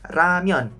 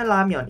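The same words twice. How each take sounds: First: The first consonant sounds like an R. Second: The first consonant sounds like an L. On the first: "Kalau saya sih bacanya ramyeon" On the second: "Tapi ada juga yang bacanya ramyeon"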